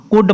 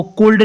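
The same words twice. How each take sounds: First: "कुड" going straight from vowel to d; silent L. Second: "कुल्ड" with an audible l before the d; wrongly sounded L. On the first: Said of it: "पढ़ना है". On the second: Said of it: "नहीं पढ़ना". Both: Shown as a demonstration.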